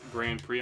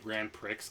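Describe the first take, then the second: First: The x at the end of Prix is silent. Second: The x at the end of Prix is pronounced. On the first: The speaker calls it right. "people correct me. They're like, it's Grand Prix" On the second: The speaker calls it wrong. "I also call the NASCAR Grand P- Prix the Grand Prix because there's an X"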